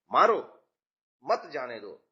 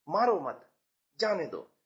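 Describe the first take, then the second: First: Loud punched मारो, pause, then lower मत जाने दो; pause after मारो. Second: मारो मत as one falling phrase, pause, then जाने दो; pause after मत. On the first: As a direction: hit मारो hard as an order, then break. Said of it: "तो पहले वाक्य में". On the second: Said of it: "केवल कहने का लहजा बदल गया". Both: Shown as a demonstration.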